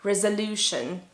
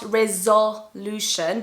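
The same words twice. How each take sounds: First: "resolution" with the O reduced to uh; "resolution" with a short, unstressed middle vowel; schwa in the middle. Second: "resolution" with a full ZO in the middle; "resolution" mispronounced with a strong O after the Z; wrong full vowel. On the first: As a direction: say "resolution" as rez-uh-LOO-shun. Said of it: "It's called the schwa". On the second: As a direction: say "resolution" as rez-ZO-lution, the middle vowel unreduced. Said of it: "it's not resolution, but a". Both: Shown as a demonstration.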